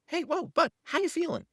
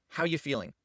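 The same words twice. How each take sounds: First: Put-on high, gentle check-in to the child; demo to child. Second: Said in the usual way. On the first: Shown as a demonstration. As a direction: ask it lightly, pitched way up. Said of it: "we're just gonna say". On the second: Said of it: "Just that simple question of".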